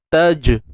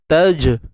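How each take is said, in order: No difference in how they are said.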